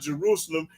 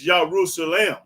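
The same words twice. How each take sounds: First: The word begins with a J sound. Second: The word begins with a Y sound. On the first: The speaker calls it wrong. "it's not Jerusalem" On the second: The speaker calls it right. "It's Jerusalem. ... because it starts with a Y and not no J"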